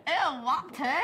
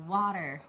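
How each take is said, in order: First: Imitating British accent. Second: "water" said the American way, with an r at the end; American "water", t softened and r sounded; American pronunciation. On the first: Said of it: "Did I say it right?". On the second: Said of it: "We say". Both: Shown as a demonstration.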